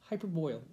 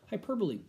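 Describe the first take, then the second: First: The word ends with a sound like "boil". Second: The word ends with the sounds "bo-lee". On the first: The speaker calls it wrong. "People say it wrong" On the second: The speaker calls it right. "Not hyperboil, hyperbole"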